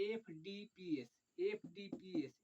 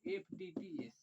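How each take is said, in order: First: Slow dictation. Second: Said in the usual way. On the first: Shown as a demonstration. Teacher dictating the order to students, slowly. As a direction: say एफ़डीपीएस letter by letter, slowly. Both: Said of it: "अब हम एफ से चलेंगे".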